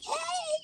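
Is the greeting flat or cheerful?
cheerful. The greeting sounds cheerful and lively.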